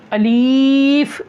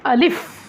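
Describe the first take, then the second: First: The word is drawn out slowly. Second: The word is said quickly and short. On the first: The speaker calls it wrong. "ये भी गलत है" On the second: The speaker calls it right. "जल्दी पढ़ना है इसको"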